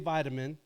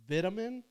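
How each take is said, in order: First: It is said with an American accent. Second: It is said with a British accent.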